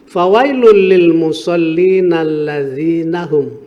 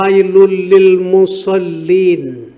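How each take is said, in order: First: The reading continues past musallin without stopping. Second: The reading stops right after musallin. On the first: Woe to those who pray who neglect their prayer. The speaker calls it right. "seyuknya diwasolkan atau disambung" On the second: Woe to those who pray. The speaker calls it wrong. "kalau berhenti fawailul lil musallin kemudian shadaqallahul azim kan terputus"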